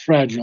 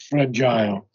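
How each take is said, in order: First: The stress is on the first syllable. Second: The stress is on the second syllable. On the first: The speaker calls it right. "so the accent is on the first syllable" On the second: The speaker calls it wrong. "not fragile"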